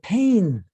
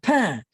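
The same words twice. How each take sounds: First: The N sound is clearly pronounced at the end. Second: The vowel is nasal with no N sounded. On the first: This is the southern French way of saying it. "he pronounced it pain ... he actually says the N" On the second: This is the Parisian way of saying it. "I pronounced it pain ... that's Parisian"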